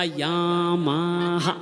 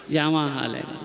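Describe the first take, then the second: First: Very slow, sung-out brand name "यामाहा"; sung drawn out. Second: Said in the usual way. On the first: Retold or imitated. The boy answers the dowry question, singing "यामाहा" slowly. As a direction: stretch "यामाहा" into a lilting sung tone.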